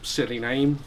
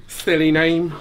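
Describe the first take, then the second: First: Said in the usual way. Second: Silly name with a lisp, s as th: thilly name; mock the lisp on silly name, thilly. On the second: Shown as a demonstration. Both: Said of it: "Or maybe I should say".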